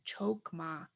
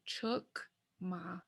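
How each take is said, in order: First: The first vowel sounds like 'o'. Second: The first vowel sounds like 'u'. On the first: The speaker calls it wrong. "you don't really hear people saying chokma, chokma, unless they don't know the language" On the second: The speaker calls it right. "the O doesn't sound like an O. It sounds like a U"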